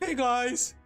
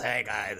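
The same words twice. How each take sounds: First: It is said in a nerdy put-on voice. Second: It is said in a roach-like put-on voice. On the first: "I have my nerd voice" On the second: "I have like the the roach voice"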